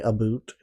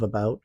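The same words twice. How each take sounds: First: It is said in an exaggerated mock-Canadian accent. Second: It is said in an ordinary, unexaggerated accent. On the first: This is how the show makes Canadians talk. The speaker calls it wrong. "they do this stupid accent where they say about" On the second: This is how Canadians actually talk. The speaker calls it right. "instead of about"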